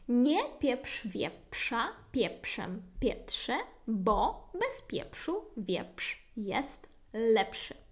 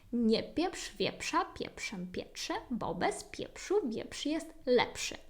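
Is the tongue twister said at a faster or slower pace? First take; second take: slower; faster. First: The tongue twister is said at a slower pace. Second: The tongue twister is said at a faster pace.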